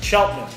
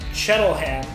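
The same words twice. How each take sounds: First: It is said the way locals say it. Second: It is said as read from the spelling. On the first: The speaker calls it right. "but it's Cheltenham, the local pronunciation" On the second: The speaker calls it wrong. "when I look at it, I say Cheltenham"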